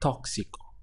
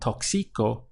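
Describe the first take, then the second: First: The stress is on the first syllable. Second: The stress is not on the first syllable. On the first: The speaker calls it right. "you can see the accent over the O" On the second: The speaker calls it wrong. "so it's not toxico"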